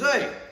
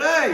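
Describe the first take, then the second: First: It is said at normal volume. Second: It is said loudly, like a holler.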